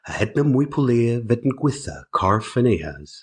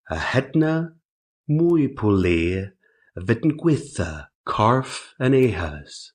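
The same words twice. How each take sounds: First: It is spoken at a normal speed. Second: It is spoken slowly. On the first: "mi vet in leverel hetna en toth normal" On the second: "Arta yn lent"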